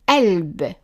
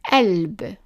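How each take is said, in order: Both takes have the same delivery.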